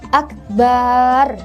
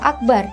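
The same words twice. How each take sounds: First: The vowel after the b is drawn out. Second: The vowel after the b is short. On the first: "tidak memanjangkan huruf ba-nya ... sehingga terbaca akbar seperti itu. Itu juga tidak boleh" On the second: "pada kata akbar"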